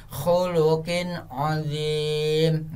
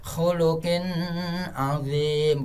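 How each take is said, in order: First: "khuluqin azim" with a clean N and long final vowel; correct izhar reading. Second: "khuluqin azim" with a long hum after the N; sung, linger nasally on the N of "khuluqin" before "azim"; wrong humming reading. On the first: Teacher repeating for the child, "khuluqin azim" slow and clear. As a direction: recite "khuluqin azim" slowly, no humming. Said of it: "seperti itu cara membacanya". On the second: Teacher showing what to avoid, "khuluqin azim" with hummed N. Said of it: "bukan seperti ini". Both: Shown as a demonstration.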